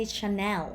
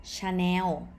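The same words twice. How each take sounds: First: "Chanel" as shuh-NEL with final l; non-Thai pronunciation. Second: "Chanel" as cha-new, drawn out with final w; Thai pronunciation. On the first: Teacher contrasting with Thai usage, non-Thai pronunciation. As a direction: finish "Chanel" on a clear l. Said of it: "Thai people don't say". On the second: Teacher showing what Thais say instead, Thai pronunciation. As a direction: stretch "Chanel" into a w ending. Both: Shown as a demonstration.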